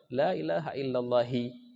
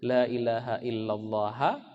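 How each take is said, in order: First: The last word ends with an i vowel. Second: The last word ends with an a vowel. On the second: "Illallaha kah"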